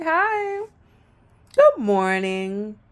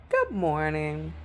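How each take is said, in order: First: High, slow sing-song good morning; sing-song high greeting. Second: Said in the usual way. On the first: Shown as a demonstration. Showing how her voice rises greeting coworkers, high and slow. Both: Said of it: "like I'm singing".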